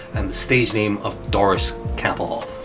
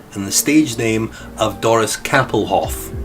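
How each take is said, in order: Both takes have the same delivery.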